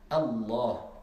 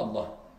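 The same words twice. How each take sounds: First: The L sound is held and doubled. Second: The L sound is short and single. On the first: The speaker calls it right. "Parce qu'il y a une shidda" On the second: The speaker calls it wrong. "je ne dis pas Allah"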